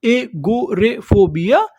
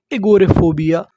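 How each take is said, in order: First: एगोरेफोबिया slowly in separate syllables, rising at the end; slow teaching breakdown of एगोरेफोबिया. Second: Said in the usual way. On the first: Shown as a demonstration. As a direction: sound out एगोरेफोबिया piece by piece. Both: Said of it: "उसे हम लोग क्या बोलते हैं".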